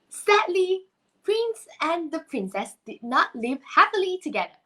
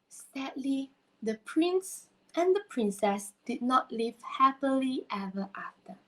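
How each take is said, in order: First: The speaker sounds cheerful, not sad. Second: The speaker sounds sad.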